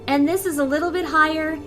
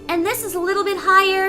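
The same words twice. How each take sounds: First: The voice is pitched slightly above normal. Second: The voice is pitched clearly above normal.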